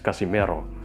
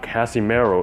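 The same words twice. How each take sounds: First: The name is pronounced the native Filipino way. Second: The name is pronounced the anglicized Western way. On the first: The speaker calls it right. "it's Casimero" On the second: The speaker calls it wrong. "It's not Casimero"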